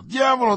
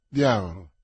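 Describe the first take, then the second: First: "diavolo" flung out high and loud, then falling; exasperated outburst. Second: A low, loud, heavy "Diavolo" on a falling tune; exasperated curse. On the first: D'Artagnan at his servant's third no, a high loud curse. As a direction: blow up on this one. Peak of the cursing. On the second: D'Artagnan to his servant after a no, a low loud curse. Master cursing each no. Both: Acted.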